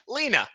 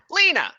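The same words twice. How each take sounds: First: Higher, simple kobold naming Lena; lightly voiced kobold, higher; kobold says Lena. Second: Much higher, louder kobold shout; chorus cheer. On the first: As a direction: point and name her. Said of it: "He points at Lena and he says". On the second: Acted. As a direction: cheer her name together. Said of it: "all at three together in chorus say".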